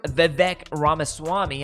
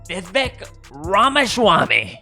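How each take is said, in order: First: The name is said in the usual standard way. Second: The name is said in an imitated, altered way. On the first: This is how the name is meant to sound. The speaker calls it right. "I think is the correct pronunciation of his name" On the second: Someone else says it this way. The speaker calls it wrong. "as Donald Trump likes to call him"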